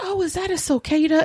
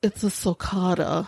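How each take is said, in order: First: Sulcata said SUL-kah-ta, Southern style; sulcata said her way. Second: Sulcata said sool-KAH-ta, correcting her; the guy's flat correction of sulcata; corrected sulcata. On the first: Asking the pet museum guy with her own Southern sulcata. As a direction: say sulcata the way she always does. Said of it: "Well, I'm from the South". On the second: Museum guy correcting her pronunciation, a touch deadpan. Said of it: "And the guy goes". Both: Retold or imitated.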